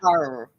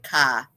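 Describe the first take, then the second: First: The final R is pronounced. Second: The final R is dropped.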